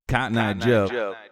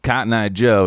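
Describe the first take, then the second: First: The phrase repeats as a bouncing, delayed echo. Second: The phrase is said once, dry, without echo. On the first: "delayed multiple times" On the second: "it's not just Cotton Eye Joe"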